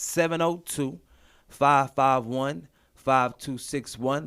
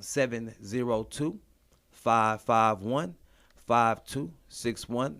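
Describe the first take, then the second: First: The number is said at normal speed. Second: The number is said slowly.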